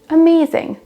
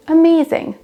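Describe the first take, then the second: First: The stress is on the second syllable. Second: The same.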